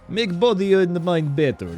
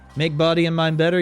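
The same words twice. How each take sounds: First: It is read in a Russian accent. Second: It is read in a plain voice.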